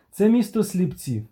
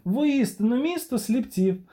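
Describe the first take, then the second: First: Said in the usual way. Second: "Воістину місто сліпців" pitched much higher, with стресс on місто and a falling end; hammed-up indignant exclamation at the crowd; emphatic repeat.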